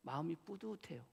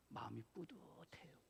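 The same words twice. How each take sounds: First: Said in the usual way. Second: 마음이 뿌듯해요 whispered, much softer and slower; whispered pride. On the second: Shown as a demonstration. Pastor whispering his pride watching the choir, softer.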